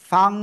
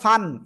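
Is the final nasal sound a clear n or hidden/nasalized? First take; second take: nasalized; clear n. First: It ends with a hidden, nasalized ng-like sound. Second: It ends with a clear n sound. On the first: The speaker calls it right. "অনুস্বারের মতো উচ্চারণ" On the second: The speaker calls it wrong. "এটা না বলে"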